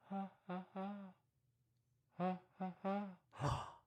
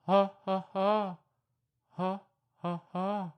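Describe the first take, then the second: First: Soft far-off ha ha hoots; faint monkey answering from afar; distant monkey call. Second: Loud ha ha monkey hoots; louder monkey call. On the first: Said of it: "What's that in the distance?". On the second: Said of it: "a little louder". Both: Pretend.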